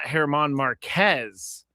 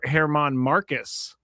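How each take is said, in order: First: The surname is said like Marquez. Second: The surname is said like Marcus. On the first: The speaker calls it wrong. "it's not Herman Marquez" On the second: The speaker calls it right. "it's Her- Herman Marcus"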